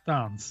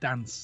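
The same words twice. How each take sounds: First: It is said in a posh southern English accent. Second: It is said in a northern English accent.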